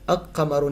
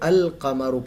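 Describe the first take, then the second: First: The L merges into a doubled q sound. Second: The L sound is clearly pronounced before qamaru. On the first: The speaker calls it wrong. "अक कमरु नहीं पढ़ा जा रहा" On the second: The speaker calls it right. "बल्कि अल कमरु पढ़ा जा रहा है"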